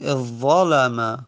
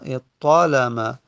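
First: The doubled consonant is an emphatic z sound. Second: The doubled consonant is an emphatic t sound. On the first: "تا رو تبدیل بکنیم به ضا" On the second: "جایزه که تا فقط تلفظ بزنیم"

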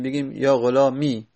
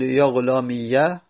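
First: The word ends in a plain long i. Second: The word ends in i followed by ya. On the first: "یا و اسکانن و ساکن بکنیم" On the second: "همین رو فتحه بدیم"

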